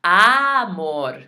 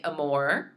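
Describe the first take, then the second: First: "amor" with a long, loud, wide open "AH"; emphatic Spanish "amor", A punched wide; exaggerated open A. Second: "amor" with a lazy English "uh" first vowel and English R; anglicized "amor", rising at the end; English-style mispronunciation. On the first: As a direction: stretch the first vowel of "amor" into a big Spanish "ah". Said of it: "I have to open my mouth wide". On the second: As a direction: say "amor" wrongly, like English "uh-more". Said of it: "I'm not saying amor". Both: Shown as a demonstration.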